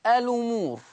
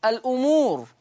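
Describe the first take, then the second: First: "الأمور" as a-lumuur; no glottal stop in "الأمور"; hamza transfer. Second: "الأمور" as al-'umuur; original hamza. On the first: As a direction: run l into the u in "الأمور". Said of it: "بشيل الهمزة وانقل الحركة". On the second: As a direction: glottal stop after the l in "الأمور". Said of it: "الأمور تقرأ". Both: Shown as a demonstration.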